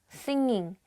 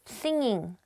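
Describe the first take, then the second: No difference in how they are said.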